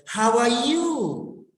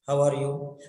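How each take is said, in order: First: "How are you?" with "you" arching up, then falling; expressive intonation. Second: "How are you?" low, on a single note; low, toneless "How are you"; flat tone. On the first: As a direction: stretch "you" with a feeling-filled swoop. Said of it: "you have to express your feelings". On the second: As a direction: say "How are you" without any melody. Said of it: "flat tone". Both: Shown as a demonstration.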